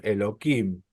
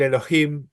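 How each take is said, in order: First: Elohim said as "Elokim", hard K; H changed to K. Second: Elohim with an audible rasped H, "elo-JIM"; H sounded. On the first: Teacher showing the form used to avoid the name, Elohim with K. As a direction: swap the H of Elohim for a K. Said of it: "dicen Elohim". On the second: Teacher giving the original sacred word, Elohim with H. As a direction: sound the hey in the middle of Elohim. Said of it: "en vez de decir". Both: Shown as a demonstration.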